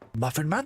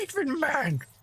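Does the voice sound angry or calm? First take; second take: calm; angry. First: It is said calmly, as a question. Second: It is said angrily, as an exclamation.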